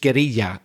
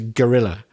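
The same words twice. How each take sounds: First: The word is pronounced with Spanish sounds. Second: The word is pronounced with English sounds. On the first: "in Spanish it's guerrilla" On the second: "our English pronunciation of it is guerrilla"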